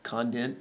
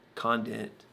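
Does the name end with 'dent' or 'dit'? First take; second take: dent; dit. First: The second syllable has an added n sound. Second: The second syllable has no n sound. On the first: The speaker calls it wrong. "if I want to put an N in somebody's last name" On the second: The speaker calls it right. "It's not condent"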